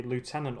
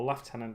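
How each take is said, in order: First: "Lieutenant" said as loo-TEN-ant; American pronunciation. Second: "Lieutenant" said as lef-TEN-ant; British pronunciation. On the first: Vlogger offering viewers one option, "Lieutenant" pronounced loo-TEN-ant. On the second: Vlogger offering viewers the other option, "Lieutenant" pronounced lef-TEN-ant. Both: Shown as a demonstration. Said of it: "depending on how you like to pronounce that word".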